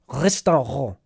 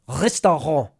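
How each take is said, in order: First: It is said with a German r sound. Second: The same.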